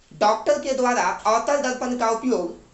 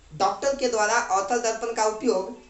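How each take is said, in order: No difference in how they are said.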